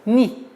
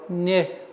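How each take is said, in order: First: The syllable ends in a clear 'ee' vowel. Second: The syllable ends in an open 'eh' vowel. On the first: The speaker calls it right. "Четкое, ясное произношение кясры" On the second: The speaker calls it wrong. "Чтобы не был у нас произношение «не»... Нет"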